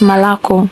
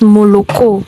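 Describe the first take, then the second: First: The first two vowels are reduced toward 'a'. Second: Every vowel is pronounced as a full 'o'. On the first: The speaker calls it right. "Why do they pronounce it as Malako?" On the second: The speaker calls it wrong. "Why don't Russians pronounce it as Moloko?"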